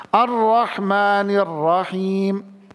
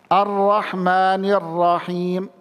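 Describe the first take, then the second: The two takes are said the same way.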